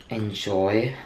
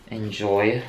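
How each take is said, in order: Both takes have the same delivery.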